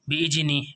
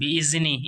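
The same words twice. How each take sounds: First: The middle consonant sounds like a j. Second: The middle consonant sounds like a d. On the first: "ऐसा नहीं पढ़ेंगे दोस्तों, इसको कभी आप जीम की आवाज़ निकालें" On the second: "दाल है बिइज़नी, इस तरह भी नहीं पढ़ेंगे"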